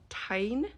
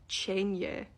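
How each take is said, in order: First: It is said as one syllable, rhyming with 'fine'. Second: It is said as two syllables, starting with 'ch'. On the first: The speaker calls it wrong. "The worst one is when she calls Mira's dragon Tyne" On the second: The speaker calls it right. "That word is Chenya"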